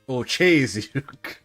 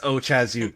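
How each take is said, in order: First: The vowel is drawn out long. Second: The vowel is short.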